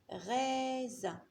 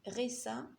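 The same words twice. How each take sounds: First: The middle consonant is a buzzing z sound. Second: The middle consonant is a hissing s sound. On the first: The speaker calls it right. "elle chante Z" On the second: The speaker calls it wrong. "ça n'existe pas"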